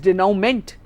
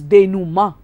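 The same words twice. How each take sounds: First: It is sounded out letter by letter, English-style. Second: It is said with a French pronunciation. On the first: "remember it as denouement" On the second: "the correct pronunciation is denouement because it's a French word"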